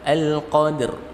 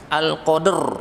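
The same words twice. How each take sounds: First: The word's ending is read clearly but not forcefully. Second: The word's ending is read very hard and forcefully. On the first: The speaker calls it right. "Yang terpenting adalah memenuhi makhrajnya" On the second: The speaker calls it wrong. "dibaca terlalu keras ... ini tidak perlu"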